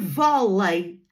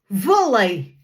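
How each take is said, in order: First: It is said with a European Portuguese accent. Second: It is said with a Brazilian Portuguese accent. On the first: "em português de Portugal" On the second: "em português do Brasil"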